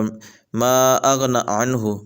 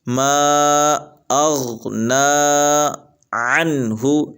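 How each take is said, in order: First: Anhu starts with a glottal catch; vowels short. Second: Anhu starts from the throat; vowels lengthened. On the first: The speaker calls it wrong. "आइन को हमज़ा पढ़ देंगे, नून के ऊपर खड़ी ज़बर को नहीं पढ़ेंगे" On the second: The speaker calls it right. "आइन को गले से निकाल के पढ़ें"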